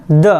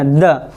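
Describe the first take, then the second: First: Said in the usual way. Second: द with halant, just a light short "d"; barely touch the द, no vowel after it; हल्की आवाज़ में द; light soft द. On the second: Shown as a demonstration. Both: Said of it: "बिल्कुल हल्की आवाज़ में कहना".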